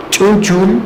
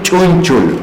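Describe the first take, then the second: First: Chunchul said higher with a rising tune, each syllable clear; careful pronunciation. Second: Said in the usual way. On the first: Shown as a demonstration. Teacher repeating Chunchul for students, carefully pronounced. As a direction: lift and spell out Chunchul for the class. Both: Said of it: "la palabra chun".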